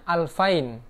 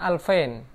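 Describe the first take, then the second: First: The middle vowel is the diphthong 'ai'. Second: The middle vowel sounds like 'e'. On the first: This is the formal standard form. "yang biasanya dibaca ai" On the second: This is the Egyptian dialect form. "mereka membacanya alfain"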